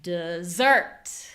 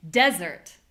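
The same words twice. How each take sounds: First: "dessert" with a strong long SERT; reduced "de", punched "SERT" in "dessert"; second-syllable stress. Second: "Desert" with a loud DES; strong "Des", falling "ert"; first-syllable stress. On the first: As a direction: put the weight on the end of "dessert". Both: Shown as a demonstration. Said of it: "only changing the stress".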